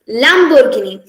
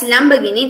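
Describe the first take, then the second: First: It is said with an Italian pronunciation. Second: It is said with an English pronunciation. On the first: "in the Italian version, as in the original version" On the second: "in the English uh, way of pronunciation"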